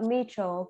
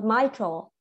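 First: The first syllable sounds like 'me'. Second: The first syllable sounds like 'my'. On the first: The speaker calls it wrong. "but it's not mitral" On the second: The speaker calls it right. "It's pronounced my, not me"

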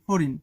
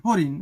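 The two takes are said the same way.

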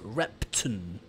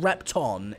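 First: The second-syllable vowel is not pronounced. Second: The second-syllable vowel is pronounced fully. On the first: The speaker calls it right. "if I'm not pronouncing the O" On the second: The speaker calls it wrong. "it's not Repton"

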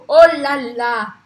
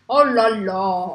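First: It sounds happy, with open vowels. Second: It sounds like a complaint, with closed vowels.

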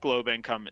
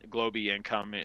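First: The first word has a single syllable. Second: The first word has two syllables. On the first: "Others call it globe" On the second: "Some people call it globy income"

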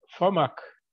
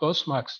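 First: The name has no s sound before m. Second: The name has an s sound before m. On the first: The speaker calls it wrong. "FOMAK kararı diye ben telaffuz ediyorum. Yanlış telaffuz ediyor olabilirim" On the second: The speaker calls it right. "FOSMAK. Teşekkür ederim"

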